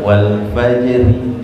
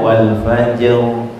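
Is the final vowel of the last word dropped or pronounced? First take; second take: pronounced; dropped. First: The final short vowel is pronounced. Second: The final vowel is dropped, ending on r. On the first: The word is read without stopping on it. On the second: The reader stops on this word.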